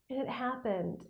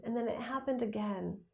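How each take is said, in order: First: Said in the usual way. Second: Whispering. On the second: Real, not acted. Whispered repeat for emphasis.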